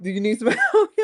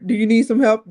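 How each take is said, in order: First: Repeating the offer as a laugh breaks in; mock helper dissolving into laughter; laughing through the quote. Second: Loud, bright offer of help, pitched up; a hint of an overeager helper; helpful stranger. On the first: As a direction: crack up mid-imitation. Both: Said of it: "seriously, I was like".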